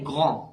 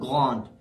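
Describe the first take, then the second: First: The word ends on the vowel, d silent. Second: The word ends with an audible d sound. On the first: The speaker calls it right. "The last letter pronounced is A. So we say grand" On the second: The speaker calls it wrong. "not grand"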